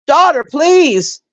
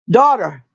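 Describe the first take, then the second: First: Daughter stretched slow and high; exasperated daughter, please, drawn out high. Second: Said in the usual way. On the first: Shown as a demonstration.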